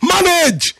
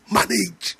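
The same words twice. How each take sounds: First: High, strained drill-sergeant shout of the word; military barrack command. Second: Much softer, dropped one-word urging; soft reassurance. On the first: Retold or imitated. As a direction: yell the one-word order like a barracks sergeant. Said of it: "the way they say it in the military barrack". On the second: Shown as a demonstration. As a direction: say "manage" gently, almost under the breath. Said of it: "As painful as it's gonna be".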